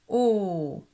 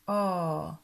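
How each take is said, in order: First: The vowel is closed with tightly rounded lips. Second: The vowel is open with looser rounded lips. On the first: "La bouche fait un rond avec les lèvres" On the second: "le O est légèrement plus ouvert. Ta bouche fait un O un peu plus ouvert"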